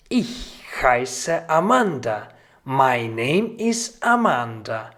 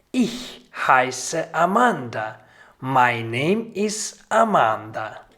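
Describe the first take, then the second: No difference in how they are said.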